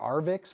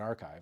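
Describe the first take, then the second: First: The word ends with a 'vix' sound. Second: The word sounds like 'archive'. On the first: The speaker calls it wrong. "I thought it was Arvix for a while" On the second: The speaker calls it right. "you pronounce that Archive"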